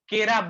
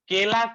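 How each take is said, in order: First: The middle consonant is an r sound. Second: The middle consonant is an l sound. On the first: "केरा बोल रहे हैं बिहार में" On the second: "केला को आप केरा बोल रहे हैं बिहार में"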